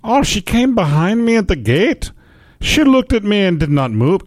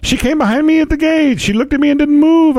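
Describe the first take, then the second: First: Put-on higher-pitched, botched Irish accent that drifts toward Scottish; poor Irish-Scottish brogue; bad Irish accent. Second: Much higher, exaggerated Irish brogue; silly high-pitched mock Irish; hammed-up Irish. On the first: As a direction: attempt an Irish accent and miss. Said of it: "how to do an Irish accent". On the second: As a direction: overdo the Irish accent in a high voice. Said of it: "I'm Irish".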